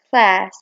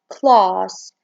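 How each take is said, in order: First: It is said with an American accent. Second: It is said with a British accent.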